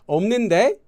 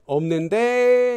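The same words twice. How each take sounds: First: The voice rises at the end like a question. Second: The voice stays level and the phrase continues. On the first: It sounds rude and challenging. The speaker calls it wrong. "If you use it with an upward intonation, like you're asking them a question" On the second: It is not rude. The speaker calls it right. "and you continue speaking, it's not rude"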